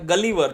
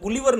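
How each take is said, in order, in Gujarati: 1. પહેલો સ્વર 'cut' શબ્દના 'uh' જેવો સંભળાય છે. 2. પહેલો સ્વર 'book' શબ્દના 'oo' જેવો સંભળાય છે. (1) "આ ગલીવર છે" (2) "આ શબ્દ ગુલિવર નથી"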